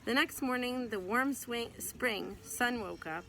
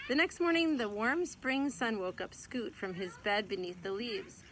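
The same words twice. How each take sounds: First: Tripping over the words mid-read; tongue-tied stumble. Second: Fresh start, warm spring sun said clearly; clean retake. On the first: Real, not acted. Mother stumbling over a line while reading to her child, tongue-tied. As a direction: fumble the line, swing for spring. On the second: Acted. Mother rereading the tripped line for her child, careful and clear. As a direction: start the sentence over and read it smoothly. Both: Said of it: "Wow, I got tongue-tied".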